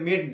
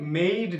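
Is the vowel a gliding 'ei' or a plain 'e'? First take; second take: plain e; ei glide. First: The vowel is a short plain e. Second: The vowel glides from e to i. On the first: The speaker calls it wrong. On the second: The speaker calls it right.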